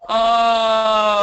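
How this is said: It is a voiced moan with firm closure.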